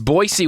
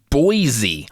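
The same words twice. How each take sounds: First: The middle consonant is an s sound. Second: The middle consonant is a z sound. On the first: This is how locals say it. The speaker calls it right. "Boise with an S, just like it's spelled" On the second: This is how outsiders usually say it. The speaker calls it wrong. "the rest of us say it wrong"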